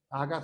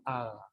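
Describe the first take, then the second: First: AGA with a hard stopped g; g fuerte. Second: AGA with a weak fricative g; g suave. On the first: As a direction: close fully on the g of "Aga". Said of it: "no dice aga". ("Aga" con g oclusiva) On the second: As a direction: relax the g in "aga". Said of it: "el sonido tiende a fricativizarse". ("aga" con g fricativa) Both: Shown as a demonstration.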